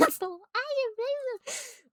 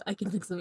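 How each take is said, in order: First: Very high, drawn-out mocking voice; mock high wail. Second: Said in the usual way. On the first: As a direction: stretch it out way up high, hammed-up. Mockingly repeats the line, exaggerated.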